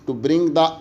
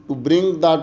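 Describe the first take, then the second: No difference in how they are said.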